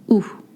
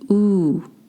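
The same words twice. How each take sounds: First: The vowel is short and clipped. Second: The vowel is drawn out long. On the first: The speaker calls it right. "they don't produce a long sound. It means that it's oo" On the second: The speaker calls it wrong. "not oo"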